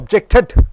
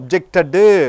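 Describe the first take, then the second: First: The word ends sharply on a d sound. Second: The word ends with an added u vowel. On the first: The speaker calls it right. "டிடி என்று வருகிறது" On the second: The speaker calls it wrong. "ஒப்ஜெக்டடு வராது"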